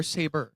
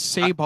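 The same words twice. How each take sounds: First: "Saber" as SAY-ber; usual pronunciation. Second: "Sabre" as SAY-bar; alternative pronunciation. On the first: Asking which way the name goes, "Saber" as SAY-ber. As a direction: end "Saber" on a reduced ber sound. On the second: Asking which way the name goes, "Sabre" as SAY-bar. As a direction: end "Sabre" on a full bar sound. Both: Shown as a demonstration. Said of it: "I always hear it both ways".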